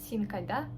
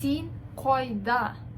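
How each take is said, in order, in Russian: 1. Здесь обычный к и открытый гласный а. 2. Здесь твёрдый к и округлый, протяжный гласный. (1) "Если бы на русском вы читали, то получилось бы так" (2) "Тут у нас к как бы твердое такое"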